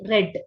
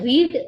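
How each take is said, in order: First: The vowel is short, like 'red'. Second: The vowel is long, like 'reed'. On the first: It is the past tense. "Past tense ಅಲ್ಲಾದ್ರೆ ರೆಡ್" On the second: It is the present tense. "Present tense ಅಲ್ಲಾದ್ರೆ ರೀಡ್ ಅಂತ pronounce ಮಾಡ್ತೀವಿ"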